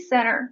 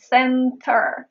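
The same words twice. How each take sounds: First: The T after the N is silent. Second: The T after the N is pronounced. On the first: "if I speak fast" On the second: "I am not saying center. It happens when you speak slow"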